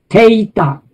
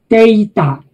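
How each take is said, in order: Both takes have the same delivery.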